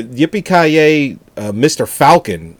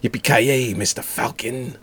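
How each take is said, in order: First: Bad acting. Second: Flat, deadpan dubbed line; bad acting. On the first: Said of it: "the dub version of that has". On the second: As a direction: deliver it like a cheesy movie dub. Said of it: "the guy delivers it like that".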